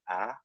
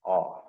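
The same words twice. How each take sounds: First: Short "ah", like the vowel in "an"; "ah" fronted, as in "an". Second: Long "ah", like the vowel in "odd". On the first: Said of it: "short, it's pronounced like the ah and an". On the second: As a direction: say "ah" open and back, as in "odd". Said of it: "Long, it's pronounced like the ah". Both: Shown as a demonstration.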